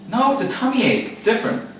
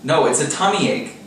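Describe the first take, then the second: First: Whiny insistence. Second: Said in the usual way. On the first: Real, not acted. Insisting to Emma, second take.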